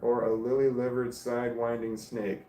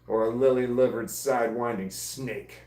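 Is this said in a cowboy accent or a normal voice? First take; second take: normal voice; cowboy accent. First: It is said in the speaker's normal accent. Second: It is said in a put-on cowboy accent. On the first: The speaker calls it wrong. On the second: The speaker calls it right.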